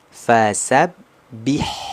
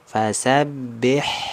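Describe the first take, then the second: First: The vowel after b is a clear i. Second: The vowel after b leans toward e. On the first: The speaker calls it right. "vokalnya i rahangnya turun" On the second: The speaker calls it wrong. "vokal ba-nya itu miring ke huruf e"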